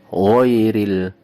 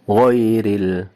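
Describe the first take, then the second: Both takes have the same delivery.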